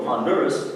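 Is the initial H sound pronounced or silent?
pronounced. It is said with an English accent and audible H. "that's English, that's okay"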